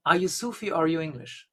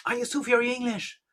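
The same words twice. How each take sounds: First: Said in the usual way. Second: Quick, higher, irritated question; annoyed. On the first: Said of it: "ask this woman in broken English". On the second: Retold or imitated. Annoyed Sufi master asks the woman again, irritated. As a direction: snap it out, fed up. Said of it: "kind of really annoyed".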